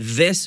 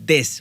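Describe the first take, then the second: First: It begins with a soft th sound. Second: It begins with a hard d sound. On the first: The speaker calls it right. "यानी दिस बोलना चाहिए" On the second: The speaker calls it wrong. "जबकि वो बोलते हैं दिस, दांतों के पीछे से दिस बोलते हैं, जो कि गलत प्रोनाउंसिएशन है"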